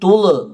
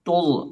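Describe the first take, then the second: First: The final consonant ends with a bouncing echo. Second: The final consonant is held closed without echo. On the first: The speaker calls it wrong. "തുള് എന്ന് പറയരുത്" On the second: The speaker calls it right. "അടഞ്ഞു തന്നെ പറയണം"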